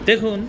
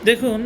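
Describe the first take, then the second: Both takes have the same delivery.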